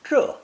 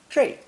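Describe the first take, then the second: First: The syllable ends in a plain 'e' vowel. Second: The syllable ends in an 'ei' glide. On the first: "This new character is pronounced fourth tone" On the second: "It's also sometimes pronounced zhi"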